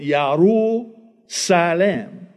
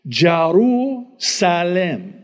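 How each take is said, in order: First: The name begins with a Y sound. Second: The name begins with a J sound. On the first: The speaker calls it right. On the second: The speaker calls it wrong.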